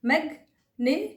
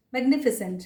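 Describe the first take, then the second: First: "magnificent" broken into mag, ni, fi, sent; syllable by syllable. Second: Said in the usual way. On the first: Shown as a demonstration. Teacher showing every syllable, "magnificent" in separated pieces. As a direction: pause after each syllable of "magnificent". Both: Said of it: "हर एक syllable".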